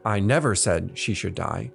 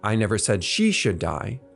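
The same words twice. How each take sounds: First: The stress falls on the word never. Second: The stress falls on the word she. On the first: It was never said at any time. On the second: It was said about someone else.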